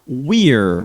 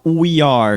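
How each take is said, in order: First: The two words merge into one syllable. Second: Two full words are said separately.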